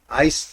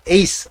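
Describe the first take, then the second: First: The vowel sounds like English 'ice'. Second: The vowel sounds like English 'ace'. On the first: The speaker calls it wrong. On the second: The speaker calls it right.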